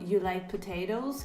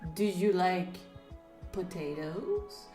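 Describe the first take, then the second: First: It is asked as an ordinary casual question. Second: It is asked in an odd, loaded manner.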